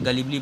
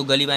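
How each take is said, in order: First: गलीबली said in full, gah-lee-blee, with a clear bli syllable before the last i; correct pronunciation. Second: गलीबा said as the wrong reading, ending on a plain long a; wrong pronunciation. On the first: Teacher giving students the correct reading of गलीबली. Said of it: "गलीबली पढ़ना है". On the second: Teacher showing students the misreading of गलीबा. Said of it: "इसको गलीबा नहीं पढ़". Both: Shown as a demonstration.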